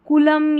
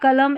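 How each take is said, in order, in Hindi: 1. पहला अक्षर koo की तरह बोला जाता है। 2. पहला अक्षर kuh की तरह बोला जाता है। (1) "कुलम या कलम ऐसे नहीं पढ़ना है" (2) "कुलम या कलम ऐसे नहीं पढ़ना है"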